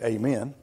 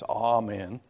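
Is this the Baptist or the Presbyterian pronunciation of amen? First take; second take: Baptist; Presbyterian. First: It is said with the Baptist pronunciation. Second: It is said with the Presbyterian pronunciation. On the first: "from the Baptist faith, you know, we say "amen."" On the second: "maybe from a Presbyterian background, it's "amen.""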